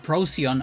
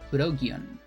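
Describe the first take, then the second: First: It is said the English way, as Procyon. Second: It is said the Japanese way, as Purokion. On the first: The speaker calls it wrong. "another one that I always got it with a C" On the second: The speaker calls it right. "is kind of more like Purokion"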